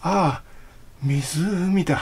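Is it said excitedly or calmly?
calmly. It is a calm, relieved sigh.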